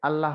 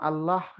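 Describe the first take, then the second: First: The word ends with an added final vowel. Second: The word ends on a bare final consonant. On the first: The speaker calls it wrong. "নইলে আল্লাহ হয়ে যাবে" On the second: The speaker calls it right. "এটা ঠিক উচ্চারণ"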